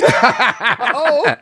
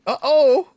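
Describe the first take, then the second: First: Louder, higher with a laugh. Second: Much higher, louder teasing uh-oh; mock uh-oh. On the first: Acted. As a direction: laugh through the taunt. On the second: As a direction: gloat with a laugh. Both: Teasing rivals, laughing.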